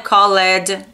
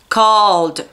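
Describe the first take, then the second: First: The ending is said as an extra 'id' syllable. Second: The ending is said as a plain 'd' sound. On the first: The speaker calls it wrong. "Não é called" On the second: The speaker calls it right. "é called"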